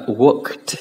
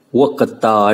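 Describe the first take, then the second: First: "worked" as one syllable ending "kt". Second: "worked" broken up as "work-tờ", the t sounded out; drawn-out T ending. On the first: Teacher putting the word back together, ED as T. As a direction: join the t straight onto "work". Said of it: "chúng ta sẽ phát âm là". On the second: Teacher breaking down the ending, T sounded out. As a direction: separate the final t of "worked" with a little vowel. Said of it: "Đó chính là âm T". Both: Shown as a demonstration.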